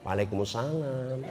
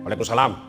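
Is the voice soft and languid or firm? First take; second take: soft, languid; firm. First: The voice is soft, drawn-out and languid. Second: The voice is firm, short and businesslike.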